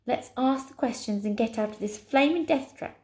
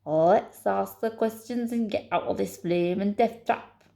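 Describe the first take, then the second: First: Said in the usual way. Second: Put-on emphatic Scottish accent; growing fed up, in a Scottish accent. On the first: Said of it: "It's a long sentence I've got to do in a Scottish accent". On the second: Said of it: "I've got to do in a Scottish accent".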